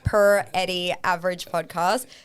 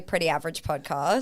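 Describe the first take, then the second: First: The first word starts with the letters P and R. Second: The first word is said as ordinary 'pretty'. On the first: It plays on the podcast being about PR. "I do like the per Eddie average podcast" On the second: It is the ordinary way of saying the name. "I just say pretty average podcast"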